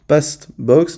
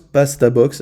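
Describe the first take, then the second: First: The consonants run together with no vowel between. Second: An extra vowel is added after 'past'. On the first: The speaker calls it wrong. "c'est très chiant à prononcer" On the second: The speaker calls it right. "on va ajouter une voyelle pour que ça soit prononçable"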